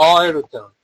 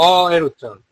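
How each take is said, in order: No difference in how they are said.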